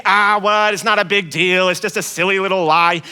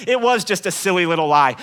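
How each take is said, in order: First: Dismissive listener. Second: Said in the usual way. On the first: Pretend. Imagined listener shrugging off the lie, lightly dismissive. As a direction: wave it away as nothing. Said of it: "you might think".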